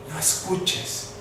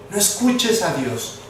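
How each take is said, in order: First: Soft, voiceless whisper; hushed whisper, planting the idea; whispered insinuation. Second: Said in the usual way. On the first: Acted. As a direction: whisper it as the tempting enemy voice. Voices the enemy's insistent voice.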